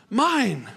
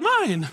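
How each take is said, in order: First: Said in the usual way. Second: Put-on higher, childish Mine. whined like a toddler; mock toddler. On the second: Preacher imitating a toddler grabbing a toy, mock childish.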